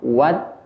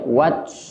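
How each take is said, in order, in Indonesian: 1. Huruf t di akhir dilepas dengan ringan dan alami. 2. Huruf t di akhir dilepas dengan hembusan nafas yang kuat. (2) "tidak dibaca wat, terlalu berlebihan"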